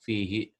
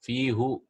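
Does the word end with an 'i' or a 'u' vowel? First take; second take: i; u. First: The word ends with an 'i' vowel. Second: The word ends with a 'u' vowel. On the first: This is the form adapted for easier pronunciation. "they made it fihi" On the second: This is the original underlying form of the word. "it's actually fihu"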